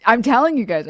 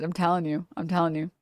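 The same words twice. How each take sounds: First: Emphatic, louder and higher on telling; insistent. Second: Softer repeat, telling still stressed; trailing off. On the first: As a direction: press the point hard at the audience. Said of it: "insistent repetition". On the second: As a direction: let the insistence fade into a mutter. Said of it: "insistent repetition, fading". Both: Real, not acted.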